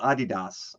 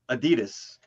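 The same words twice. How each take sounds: First: It is said the European way. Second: It is said the American way.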